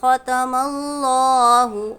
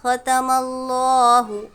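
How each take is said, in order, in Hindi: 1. Allahu में L मोटा और भारी है। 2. Allahu में L मोटा और भारी है।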